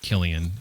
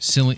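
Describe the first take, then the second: First: The name begins with a hard K sound. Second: The name begins with a soft, non-K sound. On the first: The speaker calls it right. "It's probably like Killian" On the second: The speaker calls it wrong. "that's probably not how you say his name"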